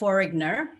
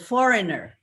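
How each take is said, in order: First: The G sound is pronounced. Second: The G sound is silent. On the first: The speaker calls it wrong. "not foreigner" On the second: The speaker calls it right. "the G is silent"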